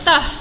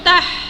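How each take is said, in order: First: The h is a light, airy breath sound. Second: The h is a harsh, raspy throat sound. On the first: The speaker calls it right. "ha ketawa yang mana keluarnya daripada pangkal halkum. Uh, jadi sebutnya tah" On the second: The speaker calls it wrong. "jangan sebut tah. Ha, jangan jangan jadikan ha ni ha pedas"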